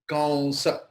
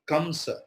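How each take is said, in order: First: The nasal before the s is a nasal glide. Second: The nasal before the s is a clear m. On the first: The speaker calls it right. "So the Anuswara's uchcharan hoga wa" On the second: The speaker calls it wrong. "Not kamsa"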